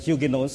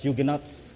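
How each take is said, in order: First: It is said with a British or French pronunciation. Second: It is said with an American pronunciation. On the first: "In British and French pronunciation" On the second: "In America, it's pronounced"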